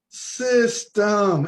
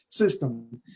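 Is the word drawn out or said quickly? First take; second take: drawn out; quickly. First: The word is drawn out slowly. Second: The word is said quickly and plainly. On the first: The speaker calls it right. "you got to say it like that" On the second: The speaker calls it wrong. "You can't say system"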